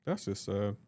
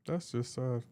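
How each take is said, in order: First: Much lower and softer, deflated; mock pitying. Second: Softer, deflated; mock pitying. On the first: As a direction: sigh it out in pity. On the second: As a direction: murmur it in pity. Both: Real, not acted. Repeated pitying verdict.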